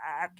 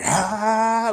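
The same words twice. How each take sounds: First: It is a quiet, small 'ah'. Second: It is a loud, full scream.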